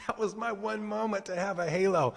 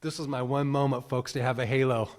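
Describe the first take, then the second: First: Laughing. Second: Excited aside. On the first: Real, not acted. Laughing retelling after laugh. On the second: Retold or imitated. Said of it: "I was like".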